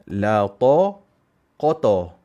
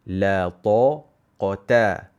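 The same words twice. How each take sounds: First: The first t sound is heavy and thick. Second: The first t sound is light and thin. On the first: The speaker calls it wrong. "Biasa orang baca apa? ... Ta menjadi tebal" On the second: The speaker calls it right. "tapi ta itu nipis. Bacalah"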